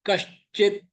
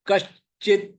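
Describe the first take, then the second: No difference in how they are said.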